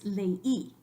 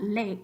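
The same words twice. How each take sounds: First: LEY split as le-Í, stress on the I; two-syllable leí. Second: LEY as one merged syllable; the wrong ley, E gliding straight into I. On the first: Teacher correcting to the real word, two-syllable le-Í. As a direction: say ley as two beats, le then a strong í. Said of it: "be two different syllables". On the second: Teacher telling students what it's not, one-syllable ley. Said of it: "we know it's not ley". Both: Shown as a demonstration.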